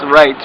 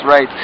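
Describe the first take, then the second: No difference in how they are said.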